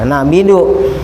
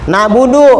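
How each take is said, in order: First: The vowel after b is i. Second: The vowel after b is u. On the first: The speaker calls it wrong. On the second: The speaker calls it right.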